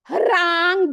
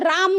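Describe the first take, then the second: First: A faint h blends forcefully into the ra. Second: The word starts directly without any h sound. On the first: The speaker calls it right. "तो आपको हरांग बोलना है। ह inside है" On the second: The speaker calls it wrong. "आपको राम नहीं बोलना है, सीधा राम नहीं बोलना है"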